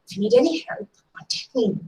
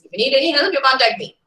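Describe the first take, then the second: First: It sounds warm and genuinely meant. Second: It sounds offhand and not wholehearted. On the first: The offer to help is genuine. "I really mean what I say" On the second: The offer is made only out of politeness. "Formality's sake, I'm throwing an invitation. I'm not wholeheartedly involving in it"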